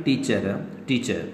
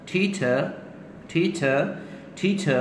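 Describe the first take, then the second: First: Said in the usual way. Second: "ठी छ" pitched higher, both consonants puffed; aspirated, no final r. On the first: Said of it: "normally हम क्या करते हैं". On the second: Shown as a demonstration. Teacher drilling the word for students, aspirated and r-less. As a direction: drill "ठी छ" with aspirated t and open ending. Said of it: "तो क्या बनेगा".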